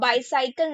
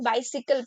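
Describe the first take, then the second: First: The middle syllable sounds like 'sigh'. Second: The middle syllable sounds like 'sih'. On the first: The speaker calls it wrong. "बाईसाइकिल नहीं" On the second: The speaker calls it right. "बाइसिकल पढ़ेंगे"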